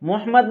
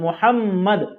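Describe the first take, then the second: First: The middle m is short and light. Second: The middle m is doubled and pressed hard. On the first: The speaker calls it wrong. "मोहम्मद नहीं पढ़ते" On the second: The speaker calls it right. "बल्कि मोहम्मद"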